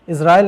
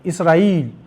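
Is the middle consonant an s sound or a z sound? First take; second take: z; s. First: The middle consonant is a z sound. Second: The middle consonant is an s sound. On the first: This is how people here usually say it. "इज़राइल नहीं बोलते हम लोग की तरह" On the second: This is how those people say it. "इसराइल बोलते हैं"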